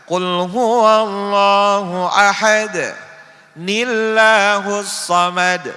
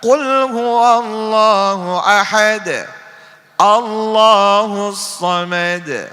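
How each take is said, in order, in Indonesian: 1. Bunyi n menyambungkan ahad ke illahus. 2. Ahad berakhir dengan bersih sebelum Allahus yang baru. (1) "Jangan kita baca ... Salah" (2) "Yang benar"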